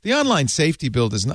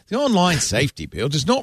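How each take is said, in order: First: It is read in the speaker's usual accent. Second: It is read in a put-on British accent.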